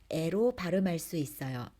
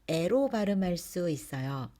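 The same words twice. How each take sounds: No difference in how they are said.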